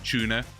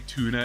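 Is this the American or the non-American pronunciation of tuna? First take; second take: non-American; American. First: It is said in a non-American accent. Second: It is said in an American accent. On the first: This is the way it used to be said. "instead of tuna" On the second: This is the newly adopted way of saying it. "I will now say tuna"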